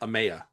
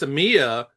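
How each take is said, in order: First: The middle vowel sounds like 'eye'. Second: The middle vowel sounds like 'ee'. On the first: The speaker calls it wrong. "I heard someone pronounce it Amaya" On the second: The speaker calls it right. "it's Amia"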